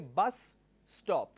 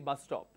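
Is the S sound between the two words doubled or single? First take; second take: doubled; single. First: Both S sounds are pronounced separately. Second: The two S sounds merge into one. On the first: The speaker calls it wrong. "I don't say bus stop" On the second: The speaker calls it right. "I remove one S and I just say bus stop"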